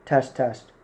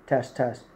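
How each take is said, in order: Both takes have the same delivery.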